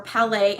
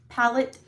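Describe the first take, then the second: First: Palette said as "pa-LAY"; French-style pronunciation. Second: Said in the usual way. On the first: Shown as a demonstration. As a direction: say Palette the French way, stress on the end. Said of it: "I think they're a little French". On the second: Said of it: "however you wanna pronounce it".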